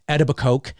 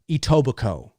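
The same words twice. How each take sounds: First: The final K sound is pronounced. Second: The final K sound is silent. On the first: The speaker calls it wrong. "did you not look up how to pronounce it?" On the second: The speaker calls it right. "K E is silent, so it's pronounced Etobicoke"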